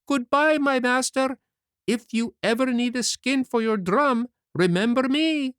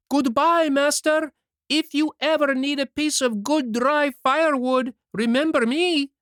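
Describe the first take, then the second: First: Calling out far away. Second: Even louder, much higher call from farther off. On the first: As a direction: shout a cheeky goodbye from the water. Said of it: "he cried out, laughing". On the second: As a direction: throw the goodbye even harder across the water. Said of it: "called louder than before". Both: A narrator's reading.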